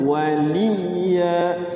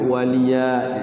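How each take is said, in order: First: The y sound is pressed and held doubled. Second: The y sound is short and single. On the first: The speaker calls it right. "Jadi ditekan huruf sukunnya" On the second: The speaker calls it wrong. "Jangan sampai waliya, jangan begitu"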